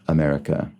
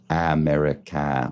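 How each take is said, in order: First: The end vowels are reduced to a weak schwa. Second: The end vowels are said as a full clear a. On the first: "that sort of elided vowel sound that is just sort of uh" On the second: "It's not America or something"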